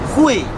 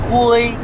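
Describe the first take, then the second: First: The pitch falls sharply from high. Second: The pitch stays high and level. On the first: It means to be able to. "то значит уметь" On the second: It means grey. "хуй это серый цвет, серый, типа такой"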